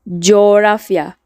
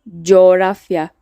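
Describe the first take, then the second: Both takes have the same delivery.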